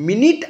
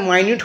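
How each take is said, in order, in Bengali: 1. প্রথম স্বরধ্বনিটি একটি ছোট 'i' ধ্বনি। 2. প্রথম স্বরধ্বনিটি একটি 'eye' ধ্বনি। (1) "মিনিট আর মাইনিট হয়ে যাচ্ছে হোমোগ্রাফ" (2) "মিনিট আর মাইনিট হয়ে যাচ্ছে হোমোগ্রাফ"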